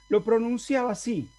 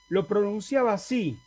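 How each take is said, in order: The two takes are said the same way.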